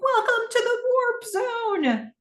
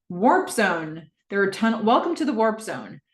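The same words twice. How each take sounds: First: High, drawn-out triumphant call; excited cheer. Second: Said in the usual way. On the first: Acted. Cam cheering the new screen with Gordon, excited. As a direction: stretch it out slowly in a high cheer. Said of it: "They're cheering". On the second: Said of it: "new screen that says".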